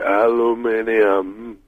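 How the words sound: It is said with a British pronunciation. "the way that the English would say aluminium"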